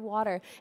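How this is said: The word is pronounced in an American way. "here in America we say water"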